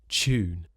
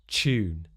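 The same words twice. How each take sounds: First: It starts with a merged ch sound. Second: The same.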